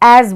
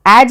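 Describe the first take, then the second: First: The word ends with a 'z' sound. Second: The word ends with a 'j' sound. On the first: The speaker calls it right. "ज के नीचे बिंदु हो तो हम बोलेंगे ज। तो यहाँ पे एज बोलते हैं।" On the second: The speaker calls it wrong. "एज नहीं पढ़ेंगे"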